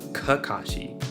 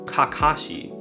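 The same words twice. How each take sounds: First: The 'ka' syllables use an English-style vowel. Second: The 'ka' syllables use a pure 'ah' vowel. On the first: The speaker calls it wrong. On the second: The speaker calls it right. "it's ka and ka, you would say something like"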